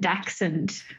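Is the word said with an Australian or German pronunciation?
Australian. The word is said with an Australian pronunciation. "I do the Aussie version"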